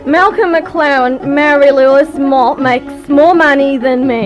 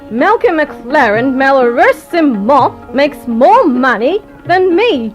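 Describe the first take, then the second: First: It is said with an Australian accent. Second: It is said with a refined transatlantic accent.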